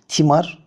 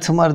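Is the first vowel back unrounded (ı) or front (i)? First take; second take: front; back. First: The first vowel is a front i sound. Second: The first vowel is a back unrounded ı sound. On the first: The speaker calls it right. "Yani i ile söylememiz lazım" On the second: The speaker calls it wrong. "biz hala tımar demeye devam ediyoruz"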